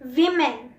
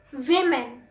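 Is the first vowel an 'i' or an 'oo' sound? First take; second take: i; i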